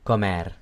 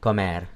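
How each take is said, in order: No difference in how they are said.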